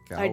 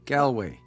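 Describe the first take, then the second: First: The name is said in an Irish accent. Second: The name is said in a plain accent.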